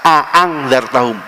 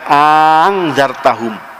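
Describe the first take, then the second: First: Both glottal stops at the start are clearly separate. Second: The second glottal stop is softened into the first. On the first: "secara tegas" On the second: "Satu hamzah dimatiin kemudian dimasukkan ke hamzah yang satu lagi"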